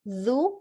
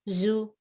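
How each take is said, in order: First: The syllable starts with a th-like dh sound. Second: The syllable starts with a buzzing z sound. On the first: The speaker calls it right. "pronounce dal" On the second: The speaker calls it wrong. "not a'uzu"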